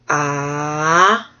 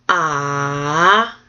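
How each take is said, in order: No difference in how they are said.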